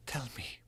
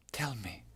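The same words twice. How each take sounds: First: Hushed, higher pleading; dying lover begging to be told stories; soft plea. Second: Unvoiced, pleading whisper; dying lover begging to be told stories, whispered; whispered plea. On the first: Acted. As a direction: beg him gently. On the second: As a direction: beg in a whisper. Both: Dying lover begs softly.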